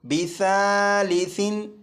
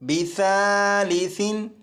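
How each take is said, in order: The two takes are said the same way.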